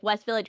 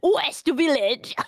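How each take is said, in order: First: It is said in a plain accent. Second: It is said in a strong French accent.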